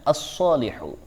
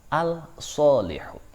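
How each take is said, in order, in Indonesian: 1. Huruf l melebur ke konsonan ganda yang mengikutinya. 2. Bunyi l dibaca jelas sebelum konsonan itu. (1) "maka cara bacanya" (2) "Tidak boleh membaca"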